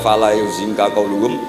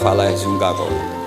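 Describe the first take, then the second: First: The verb begins with a 'yu' sound. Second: The verb begins with a 'ya' sound. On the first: The verb takes the causative form meaning to make sad. "nggak perlu dibaca" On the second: The plain verb is already transitive. "cukup dibaca"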